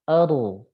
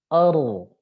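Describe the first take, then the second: The two takes are said the same way.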